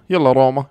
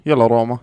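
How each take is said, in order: Both takes have the same delivery.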